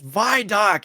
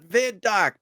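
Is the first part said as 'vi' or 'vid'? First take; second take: vi; vid. First: The first part is 'vi' with no d sound. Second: The first part is 'vid' with a d sound. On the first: The short form comes from 'visual information'. The speaker calls it right. "It's vidoc" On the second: The short form comes from 'video'. The speaker calls it wrong. "it's not vid-doc"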